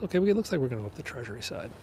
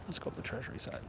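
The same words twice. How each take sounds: First: Said in the usual way. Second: Soft, unvoiced whisper of "Let's go up the Treasury side"; whispering the route again as an afterthought; whispered aside. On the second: Real, not acted. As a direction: drop to a whisper, half to yourself.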